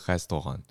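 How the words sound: It is said with a French pronunciation.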